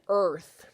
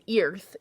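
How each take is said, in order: First: The vowel sounds like er. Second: The vowel sounds like the word ear. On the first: The speaker calls it right. "you're saying earth" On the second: The speaker calls it wrong. "You're not saying earth"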